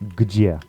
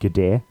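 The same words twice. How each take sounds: First: The vowel is a ye sound. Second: The vowel is a plain e sound. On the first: The speaker calls it right. "it's где" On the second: The speaker calls it wrong. "So it's not где"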